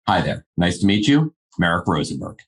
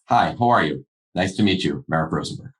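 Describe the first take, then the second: First: It is said confidently and directly. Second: It is said in a reserved, restrained way.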